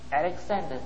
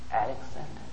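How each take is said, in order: First: The name is said at moderate volume. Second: The name is said very softly. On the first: "he said a little louder" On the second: "he replied very softly"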